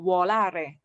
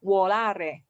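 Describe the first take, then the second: The two takes are said the same way.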